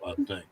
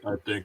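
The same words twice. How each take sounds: First: The voice is pitched much deeper. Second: The voice is pitched at a higher level.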